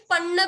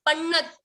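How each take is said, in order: First: पन्न ending on the vowel after double n; without the t. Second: पन्नत stopped on a half t. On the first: Teacher contrasting what is not heard, pronunciation demo. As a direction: say पन्न with no त at the end. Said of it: "सिर्फ पन्न भी नहीं". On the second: Teacher showing the sound she makes, careful half-letter demo. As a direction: end पन्नत on a त with no vowel. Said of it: "पन्नत बोल रही हूँ". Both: Shown as a demonstration.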